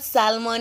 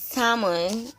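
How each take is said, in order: First: The L in the word is pronounced. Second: The L in the word is silent. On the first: The speaker calls it wrong. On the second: The speaker calls it right.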